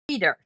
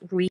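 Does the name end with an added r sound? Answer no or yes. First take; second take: yes; no. First: The name ends with an added r sound. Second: The name ends in a plain vowel, no r. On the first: "you add it on at the end. So it sounds like reader" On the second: "my name is Rita"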